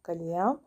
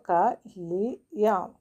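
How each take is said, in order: First: "കലിയാം" joined as one word; whole-word reading of "കലിയാം"; blended reading. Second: "ക", "ലി", "യാം" said apart; teacher sounding out "ക ലി യാം"; syllable by syllable. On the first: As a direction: run the syllables together as "കലിയാം". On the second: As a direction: break it into "ക"... "ലി"... "യാം". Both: Shown as a demonstration. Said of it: "എന്ന് വായിക്കണം".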